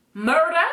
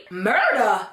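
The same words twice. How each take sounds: First: Higher, rising, questioning disbelief; incredulous question. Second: Drawn-out, incredulous echo of the word; stunned disbelief. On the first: Friend questioning a death threat, incredulous rising question. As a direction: ask it back in disbelief, pitch lifting at the end. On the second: Appalled friend reacting to a death threat, stunned disbelief. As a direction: repeat it as if appalled. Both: Retold or imitated.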